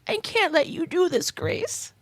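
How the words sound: It is said in an old lady voice.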